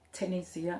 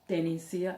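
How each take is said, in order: First: The name begins with a clear T sound. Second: The name begins with a clear D sound. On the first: "not Tenesia" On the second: "and not Denisia"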